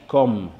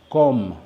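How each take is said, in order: No difference in how they are said.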